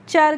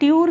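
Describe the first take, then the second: First: The ending is said with a 'ch' sound. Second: The ending is said with a 'ty' sound. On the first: The speaker calls it right. "चर करके करना है" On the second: The speaker calls it wrong. "ट्यूर करके नहीं करना है"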